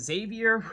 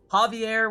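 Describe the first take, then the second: First: The name is said with an American pronunciation. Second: The name is said with a Spanish pronunciation. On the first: "would be the usual American pronunciation" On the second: "would be the uh, Spanish pronunciation"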